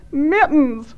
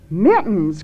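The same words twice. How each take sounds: First: High, wailed name; tearful cry. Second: Aghast cry. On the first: Thad names who is down the well, tearful cry. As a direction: wail the name as if in tears. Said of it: "wept Thad". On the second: The others learn who is down the well, aghast cry. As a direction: say the name in appalled disbelief. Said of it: "cried the others, aghast". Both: A narrator's reading.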